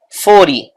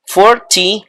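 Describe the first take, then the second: First: Forty said like foridy, t tapped; relaxed American forty, t flapped. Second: Forty with a crisp t sound; careful American Forty, t clearly said. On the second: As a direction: say Forty with the t fully pronounced. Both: Shown as a demonstration. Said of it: "or you can say forty".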